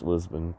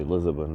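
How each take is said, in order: First: "Lisbon" in two syllables, LIZ-bun; English Lisbon. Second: "Lisbon" in three syllables, LIZ-uh-bun; extra vowel in Lisbon. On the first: Traveler correcting himself, "Lisbon" as English LIZ-bun. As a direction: say "Lisbon" the English way, no middle vowel. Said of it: "but English, Lisbon". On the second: Traveler catching his own habit, "Lisbon" with an added middle vowel. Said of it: "I always wanna say Lisbon". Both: Shown as a demonstration.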